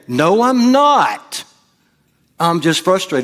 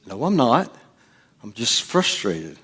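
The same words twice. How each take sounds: First: High, drawn-out protest, acted out; mock outburst, pitch soaring on a long NOT; angry denial. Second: Hushed, restrained insistence; quiet mock-calm denial; denying anger. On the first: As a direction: blurt the denial as if losing your temper. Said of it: "then I realized I was angry". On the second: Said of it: "No, you're getting angry".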